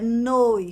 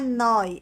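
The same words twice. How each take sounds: First: The o vowel is pronounced closed. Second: The o vowel is pronounced open. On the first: The speaker calls it right. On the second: The speaker calls it wrong. "Não é noi"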